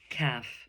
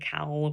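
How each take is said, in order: First: The L sound is silent in the word. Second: The L sound is pronounced in the word. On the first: The speaker calls it right. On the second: The speaker calls it wrong.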